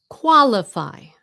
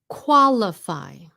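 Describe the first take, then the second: No difference in how they are said.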